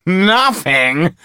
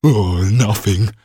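First: High, loud mocking thug. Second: A slow, drawn-out "Oh, nothing" sinking in dismay; despairing. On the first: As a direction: scoff at the actor. Thug laughs off empty threat. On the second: Acted. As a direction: groan "nothing" as if robbed yourself. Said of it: "he said despairingly".

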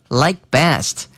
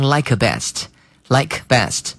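First: Like best with the k of like left silent, running straight into best; like best said as lie-best; k dropped. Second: Like best with a full k sounded, like-kuh best; wrong like best with a clear k; k pronounced. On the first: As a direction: swallow the k in like best. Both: Shown as a demonstration. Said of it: "而不要发成like best".

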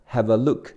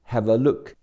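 Both takes have the same delivery.

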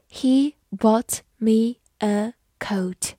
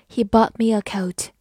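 First: Slow, word-by-word dictation with gaps; measured teacher's model, pausing between words. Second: Said in the usual way. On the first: Shown as a demonstration. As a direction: say each word separately, slowly and clearly.

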